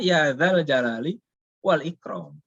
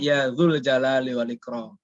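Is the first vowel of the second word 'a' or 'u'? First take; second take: a; u. First: The second word is said with an 'a' vowel. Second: The second word is said with a 'u' vowel. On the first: The speaker calls it right. "Tapi harusnya" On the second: The speaker calls it wrong. "jangan sampai baca doa nyebutnya"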